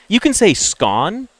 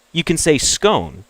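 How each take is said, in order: First: "scone" said with a short o, like "gone"; "scone" with a short o sound; scone rhyming with gone. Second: "scone" said with a long o, like "cone"; "scone" with a long o sound; scone rhyming with cone. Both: Shown as a demonstration. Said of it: "It has different pronunciations".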